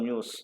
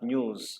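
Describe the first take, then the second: First: The word ends with an s sound. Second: The word ends with a z sound. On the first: The speaker calls it wrong. "మనం ఎండింగ్లో సా పలుకుతాం" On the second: The speaker calls it right. "Original sound జా"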